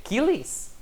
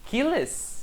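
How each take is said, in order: First: "Achilles" said as "KEE-lees", questioned; wrong form tried. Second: "Achilles" said as "KEE-les", high then falling; second wrong form. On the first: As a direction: test "Achilles" with an ee in the ending. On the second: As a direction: test "Achilles" with an eh in the ending. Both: Shown as a demonstration. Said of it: "Então você escrever Achilles?".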